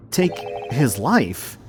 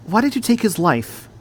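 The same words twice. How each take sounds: First: Stunned repeat. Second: Accusing. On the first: Repeats the words in disbelief. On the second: Accusing the killer. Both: Acted.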